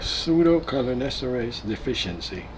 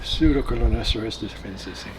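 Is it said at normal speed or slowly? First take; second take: slowly; normal speed. First: It is said slowly. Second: It is said at normal speed.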